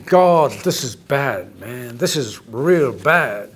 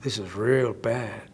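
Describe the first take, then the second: First: Slow, lower, dragged-out dismay; dismayed thought. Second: Slow, low Texan drawl on "real bad"; mock Texan emphasis. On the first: Retold or imitated. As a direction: let it sink in slowly, grimly. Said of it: "Now, if you're thinking". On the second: Shown as a demonstration. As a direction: lean into a Texan twang, drawing out "real". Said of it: "I'd be able to say it with much more emphasis".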